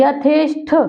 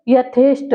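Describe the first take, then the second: First: यथेष्ट ending in aspirated ठ; यथेष्ट said as yatheshṭh; ठ form. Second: यथेष्ट ending in plain ट; no puff on the end of यथेष्ट; यथेष्ट said as yatheshṭ; ट form. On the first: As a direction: puff the last sound of यथेष्ट. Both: Shown as a demonstration. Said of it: "यहाँ टा में बदल जाएगा".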